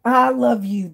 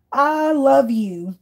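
First: Said in the usual way. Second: Slow adoring. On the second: Real, not acted. Reacting to clip with delight.

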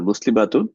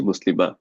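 First: Said in the usual way. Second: মুসলিমা read as at a pause, no t sound; waqf pausal form. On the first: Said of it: "যখন আমরা এটা ওয়াকফ করে পড়ি". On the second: Shown as a demonstration. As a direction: end মুসলিমা on an open a with an h release. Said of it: "হায়ের উচ্চারণ হয়".

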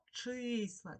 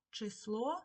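First: Числа with a long stressed И in the first syllable; stressed, stretched И. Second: Число with stressed last vowel, rising; stress on final О. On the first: Teacher giving the check word, числа stressed on long И. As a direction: draw out the И in числа so it is clearly heard. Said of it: "Чуємо И". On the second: Teacher posing a spelling example, число stressed on final О. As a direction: lean on the О ending of число. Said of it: "наголосна О". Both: Shown as a demonstration.

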